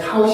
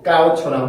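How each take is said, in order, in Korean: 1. k 소리는 거센소리입니다. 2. k 소리는 된소리입니다. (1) "카웃이 아니고" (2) "까웃처럼 소리가 바뀌게 됩니다"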